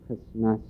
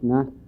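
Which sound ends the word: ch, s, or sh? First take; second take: s; ch. First: Both sh sounds become plain s sounds. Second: The word ends in a raspy ch sound. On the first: This is the Upper Inlet form. "the S H becomes more of an S" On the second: This is the Dalton form. "in Dalton, if you say that, it's like this. And I write this with an X"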